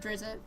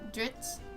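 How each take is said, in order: First: An extra vowel is added before the t. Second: It is said as one syllable. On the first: "I call him Drizzit" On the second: "It's D R I Z Z T"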